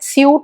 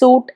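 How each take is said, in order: First: A 'y' glide follows the s, like 'syoot'. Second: The s goes straight into the vowel, like 'soot'. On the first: The speaker calls it wrong. "സ്യൂട്ട് എന്ന് പറയേണ്ട" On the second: The speaker calls it right. "സൂട്ട് എന്ന് മാത്രം പറഞ്ഞാൽ മതിയേ"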